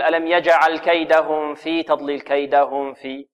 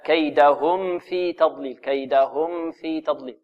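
First: م of كيدهم blurred into the following ف; faulty recitation with smothered meem in كيدهم; wrong hidden meem. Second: Slow كيدهم في with lips fully closed on م, then ف; careful correct recitation, distinct meem in كيدهم; clear meem. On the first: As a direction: let the lips slide from م to ف in كيدهم في, as a mistake. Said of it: "لا نقول". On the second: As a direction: sound the م of كيدهم plainly before the ف. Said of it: "لا". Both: Shown as a demonstration.

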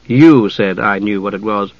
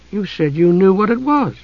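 First: Low, restrained correction; mild protest. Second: Put-on higher-pitched girl's retort; young Usha, puzzled. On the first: A narrator's reading. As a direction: correct her mildly, pitched down. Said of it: "Dalamar protested mildly". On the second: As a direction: answer back in a young, pitched-up voice. Usha turns the question back.

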